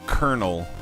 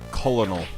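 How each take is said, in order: First: The word is said in its usual short form. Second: The word is said following its spelling. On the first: This is the everyday way of saying it. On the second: This helps in spelling the word out loud.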